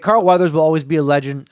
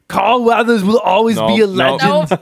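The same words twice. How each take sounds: First: It is read in the speaker's own voice. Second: It is read in an imitated Austrian accent.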